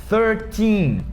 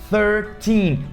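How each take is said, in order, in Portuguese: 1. A ênfase está na última sílaba. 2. A ênfase está na última sílaba.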